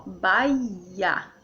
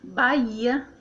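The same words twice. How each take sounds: First: "Bahia" drawn out slowly as bai-ia; slow demonstration of Bahia as bai-ia; stretched syllables. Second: Said in the usual way. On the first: Shown as a demonstration. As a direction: linger on the glide in Bahia. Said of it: "o U fica junto com o I". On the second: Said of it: "Por exemplo, aqui, ó".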